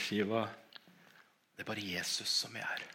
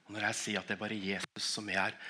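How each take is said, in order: First: Soft, quiet reassurance to Shiva; softly telling the deaf dog only Jesus is here; hushed words to the dog. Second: Said in the usual way. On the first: Retold or imitated. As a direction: say it gently and low, almost to yourself. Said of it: "Så sier jeg til henne".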